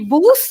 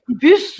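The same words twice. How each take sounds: First: The vowel is not a clear French u sound. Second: The vowel is a clear, lip-rounded French u. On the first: The speaker calls it wrong. "normalement, je dis bus" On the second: The speaker calls it right. "mais bus"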